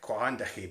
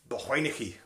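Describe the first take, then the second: First: The name is said as it is spelled. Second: The name is said in its local form. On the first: The speaker calls it wrong. "It looks like Quahandachi" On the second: The speaker calls it right. "but it's it's pronounced Balhuinechi"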